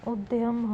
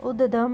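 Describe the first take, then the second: First: उद्यम said as ud-yam; correct pronunciation. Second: उद्यम said as ud-dam, no y; wrong pronunciation. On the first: Teacher giving the correction, उद्यम as ud-yam. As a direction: sound the y in उद्यम. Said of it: "होगा". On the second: Teacher showing a spelling error, उद्यम as ud-dam. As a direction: drop the y from उद्यम. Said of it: "नहीं होगा". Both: Shown as a demonstration.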